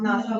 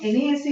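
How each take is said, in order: First: It is pronounced as a single word. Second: It is spelled out letter by letter. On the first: The speaker calls it right. "हम नासा बोल रहे हैं" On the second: The speaker calls it wrong. "हम एनएएसए नहीं बोल रहे हैं"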